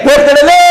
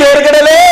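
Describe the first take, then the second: Both takes have the same delivery.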